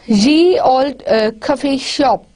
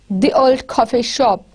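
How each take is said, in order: First: The first word starts with a y sound. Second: The first word starts with a th sound. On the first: The speaker calls it wrong. "This is not ye" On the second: The speaker calls it right. "it was the"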